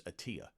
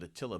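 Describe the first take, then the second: First: "Attia" with no L; corrected pronunciation of Attila. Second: "Attila" with the L sounded; usual pronunciation of Attila. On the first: Co-host correcting a name from later research, "Attia" without the L. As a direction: drop the L, saying "Attia". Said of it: "the real pronunciation I found out". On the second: Co-host citing how everybody pronounces it, "Attila" with an L. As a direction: say "Attila" with its L in the last syllable. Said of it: "everybody pronounces it Attila". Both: Shown as a demonstration.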